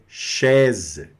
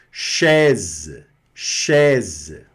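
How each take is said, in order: First: Chaise, ai as open è, z end; French chaise. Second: Chaise with open è and a z end; chaise, final s as z; French chaise. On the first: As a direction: shez. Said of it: "A mais I da E". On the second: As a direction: say chaise as shez. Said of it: "esse S aqui vai ter esse som". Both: Shown as a demonstration.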